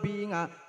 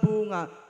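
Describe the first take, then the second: First: The first vowel is a pure i sound. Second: The first vowel is a pure u sound. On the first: "ikhlasul kasri" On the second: "ikhlasul dhammi"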